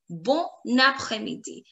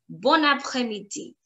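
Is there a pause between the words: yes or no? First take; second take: yes; no. First: It is said with a pause between words. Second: It is said in one go without pause.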